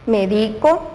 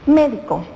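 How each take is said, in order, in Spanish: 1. El acento está en la segunda sílaba. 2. El acento está en la primera sílaba. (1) "Cuando es una palabra grave y la fuerza la hacemos en la sílaba del centro" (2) "y la palabra antes grave por esdrújula cambió"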